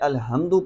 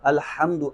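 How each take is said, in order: First: The h is a light, breathy sound. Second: The h is a tight, throaty sound. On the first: Death is coming upon someone. The speaker calls it wrong. "ये वाली हा पढ़ दे" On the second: All praise. The speaker calls it right. "वहां पर हा है अल्हम्दु"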